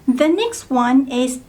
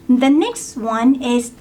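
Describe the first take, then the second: Both takes have the same delivery.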